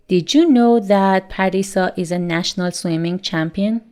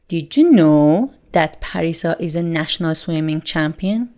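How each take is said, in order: First: The question is asked in a neutral tone. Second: The question is asked with surprise and wonder.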